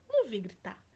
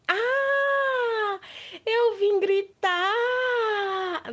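First: Said in the usual way. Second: Big high playful yell; shouting. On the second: Shown as a demonstration. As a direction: shout it out to the kids. (grito alto e brincalhão) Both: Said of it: "Eu iria deixar vocês surdos".

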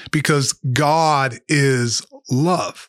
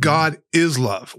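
First: "God" leaned on, very slow and weighty; slow sermon line hitting "God" in "because God is love"; stress on God. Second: "is" stressed, slow, against "doesn't do"; slow, deliberate "God is love" with "is" punched. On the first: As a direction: make "God" the point, slowly. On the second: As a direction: land hard on "is" in "God is love". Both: Shown as a demonstration. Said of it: "God doesn't do love".

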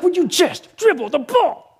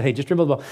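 First: Higher, laughing, pleading; mock exasperated parent; exasperated dad. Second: Lovingly. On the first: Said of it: "I was like". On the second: Retold or imitated.

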